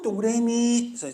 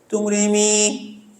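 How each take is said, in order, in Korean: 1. 평범한 말하는 목소리로 말했어요. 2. 달콤하고 천사 같은 꾸민 목소리로 말했어요.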